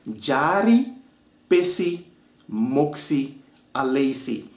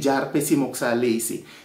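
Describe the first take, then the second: First: Every word is said slowly and in full. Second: The words are shortened and run together. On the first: This is how the name is written down. "I'm going to pronounce it for you slowly so you can hear the words as they're supposed to" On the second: This is how native speakers actually say it. "we say"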